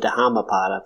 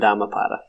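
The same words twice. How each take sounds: First: The h after the D is pronounced. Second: The h after the D is silent. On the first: "I do like the pronounced H" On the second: "I only go with the silent H"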